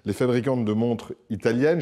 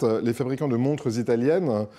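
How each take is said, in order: First: No z sound links 'montres' to 'italiennes'. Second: A z sound links 'montres' to 'italiennes'. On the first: Either the makers or the watches may be Italian. "je ne fais pas de la liaison" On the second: The watches are Italian. "mais si vous la faites"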